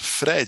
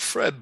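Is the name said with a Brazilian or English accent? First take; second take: Brazilian; English. First: The name is said with a Brazilian accent. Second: The name is said with an English accent. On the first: The speaker calls it right. "you have to say it with a Brazilian accent" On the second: The speaker calls it wrong. "It's not Fred"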